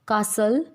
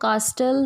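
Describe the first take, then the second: First: The t is silent in the middle. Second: The t is sounded in the middle. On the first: The speaker calls it right. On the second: The speaker calls it wrong.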